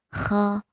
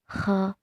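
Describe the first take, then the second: The two takes are said the same way.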